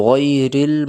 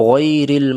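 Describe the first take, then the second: No difference in how they are said.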